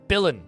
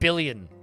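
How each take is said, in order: First: The word ends with a plain 'lin' sound. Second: The word ends with a 'lyun' sound. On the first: The speaker calls it right. "It's Billin" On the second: The speaker calls it wrong. "Not Billion"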